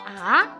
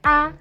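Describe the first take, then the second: First: The pitch rises from middle to high. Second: It is short, light and soft, without a contour. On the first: "naik ke atas" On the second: "ringan dan pelan"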